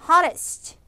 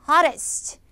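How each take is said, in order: The two takes are said the same way.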